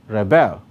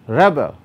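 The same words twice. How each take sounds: First: The stress is on the second syllable. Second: The stress is on the first syllable. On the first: It is used as a verb. "that's a verb" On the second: It is used as a noun. "that's a noun"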